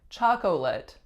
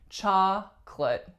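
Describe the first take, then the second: First: All three syllables are pronounced. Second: The middle syllable is dropped, leaving two. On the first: "it really looks like chocolate" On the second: "we totally get rid of that middle syllable"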